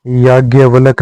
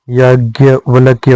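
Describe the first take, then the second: First: याज्ञवल्क ending in क; wrong form. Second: याज्ञवल्क्य ending in क्य; correct form. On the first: Teacher voicing the wrong form, याज्ञवल्क. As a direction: say याज्ञवल्क with a bare final क. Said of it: "नहीं होता है". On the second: Teacher giving the correct form, याज्ञवल्क्य. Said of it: "होता है". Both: Shown as a demonstration.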